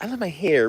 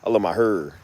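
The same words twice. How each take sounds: First: The r at the end of hair is pronounced. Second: The r at the end of hair is dropped. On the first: "we don't say hair" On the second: "We say"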